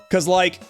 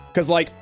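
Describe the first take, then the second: No difference in how they are said.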